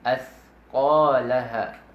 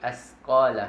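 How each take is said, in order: First: The middle consonant is a 'th' sound. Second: The middle consonant is a plain 's' sound. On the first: The speaker calls it right. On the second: The speaker calls it wrong. "Hindi asqalaha, hindi"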